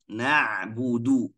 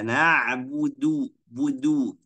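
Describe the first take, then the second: First: The final syllable flows on without a second pull. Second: The final syllable is pulled again and doubled. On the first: The speaker calls it right. "tetap monyong tidak boleh tarik lagi" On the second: The speaker calls it wrong. "Jangan baca na'budu budu. Itu salah"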